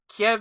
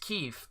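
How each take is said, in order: First: The name is said the Russian way, like 'Kiev'. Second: The name is said the Ukrainian way, like 'Kyiv'. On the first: The name follows the Russian language. The speaker calls it wrong. "Kiev is if you speak Russian" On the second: The name follows the Ukrainian language. The speaker calls it right. "the Ukrainian language pronunciation"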